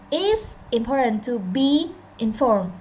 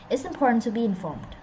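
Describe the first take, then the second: First: The words are spoken separately, not run together. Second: The words run together smoothly without breaks. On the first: The speaker calls it wrong. "They don't say, they didn't say" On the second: The speaker calls it right. "Like that"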